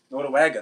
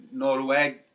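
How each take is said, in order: First: Noruega said whole and firm, falling at the end; settled, full Noruega; confident answer. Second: Hesitant, half-finished Noruega; tentative Noruega, cut short; unsure try. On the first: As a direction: land Noruega clearly and surely. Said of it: "né?". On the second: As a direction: feel for the word Noruega and trail off. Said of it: "how do you say Nor-, Norway in Portuguese?". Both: Real, not acted.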